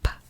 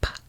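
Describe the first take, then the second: Both takes have the same delivery.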